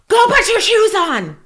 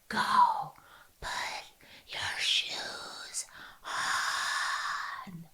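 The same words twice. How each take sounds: First: It is said loudly, as a yell. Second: It is said in a whisper.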